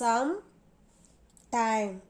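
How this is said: A short gap separates the two parts.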